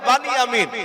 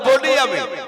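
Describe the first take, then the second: First: The first syllable has an open 'a' vowel. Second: The first syllable has a rounded 'o' vowel. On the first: This is the Arabic pronunciation. "আরবিতে উচ্চারণ হবে বানিয়ামিন" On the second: This is the Bengali pronunciation. "বাংলায় বলতে গেলে বলতে হবে বনিয়ামিন"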